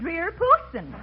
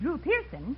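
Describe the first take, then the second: First: The first name is said as Dreer. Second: The first name is said as Drew. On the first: The speaker calls it wrong. "he said Dreer Pearson" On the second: The speaker calls it right. "he was supposed to say"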